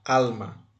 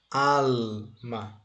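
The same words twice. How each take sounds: First: Said in the usual way. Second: "Alma" split into "al" and "ma"; drawn-out "Al... ma" for a learner; syllable by syllable. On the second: Shown as a demonstration. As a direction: break "Alma" in two with a gap between the syllables. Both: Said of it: "Nós vamos separá-la".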